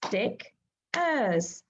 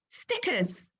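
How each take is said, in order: First: Stick-ers clapped in two parts; clapped syllables. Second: Said in the usual way. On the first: Shown as a demonstration. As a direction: split into two beats, STICK then ERS. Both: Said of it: "Can you clap the syllables with me?".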